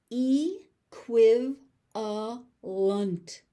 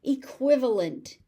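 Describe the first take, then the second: First: "Equivalent" very slowly as ee, kwiv, uh, lunt; four separate beats on "Equivalent"; syllable by syllable. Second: Said in the usual way. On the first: Shown as a demonstration. Teacher sounding out "Equivalent" for learners, slowly by syllable.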